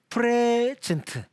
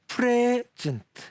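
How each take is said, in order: First: The stress is on the first syllable. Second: The stress is on the first syllable.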